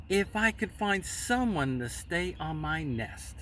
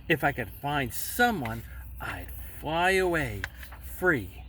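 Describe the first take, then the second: First: Said in the usual way. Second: Whisper. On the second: Acted.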